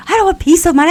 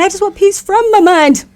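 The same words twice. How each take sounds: First: "don't" stressed, high and excited. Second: "from" stretched, high and excited; stress on from. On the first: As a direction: lean on "don't want peace of mind". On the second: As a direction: draw out "peace from my mind". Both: Retold or imitated. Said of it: "I was like".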